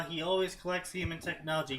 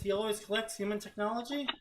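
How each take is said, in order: First: Said in the usual way. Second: "He always collects human technology?" as a doubtful rising question, higher and fast; incredulous question. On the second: Shown as a demonstration.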